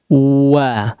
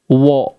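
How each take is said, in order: First: The vowel is open, with the lips unrounded. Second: The vowel is rounded, with the lips pushed forward. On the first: The speaker calls it right. "maka wawunya itu bentuk wawunya dibuka" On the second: The speaker calls it wrong. "Jangan tetap berada di depan wo. Wo, enggak"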